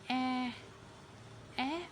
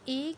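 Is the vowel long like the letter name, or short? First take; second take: short; long. First: The vowel is short, as in apple. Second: The vowel is long, like the letter's name. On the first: "बल्कि ए ए आएगी, जैसे कि ए एप्पल" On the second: "ए की sound ए की नहीं"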